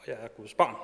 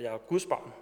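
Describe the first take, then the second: First: The stress falls on the word barn. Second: The stress falls on the word Guds.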